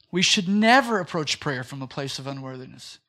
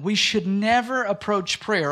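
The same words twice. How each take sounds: First: Lower, measured repeat of the full line with "never" stressed; repeated for emphasis. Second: "never" leaned on, slow; slow down and land "We should never approach prayer"; stress on never. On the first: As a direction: restate the whole line calmly. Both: Shown as a demonstration. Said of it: "write this down".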